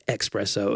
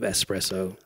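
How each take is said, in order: First: "espresso" said as "ek-SPRESS-oh"; mispronounced espresso. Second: Said in the usual way. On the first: Shown as a demonstration. Friend asking about coffee mispronouncers, "espresso" as "expresso". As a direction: put a k sound into "espresso": "expresso". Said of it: "just to irritate people". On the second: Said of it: "instead of espresso".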